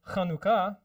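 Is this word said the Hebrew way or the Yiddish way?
Hebrew. It is said with Hebrew syllable stress. The speaker calls it right. "Same thing with"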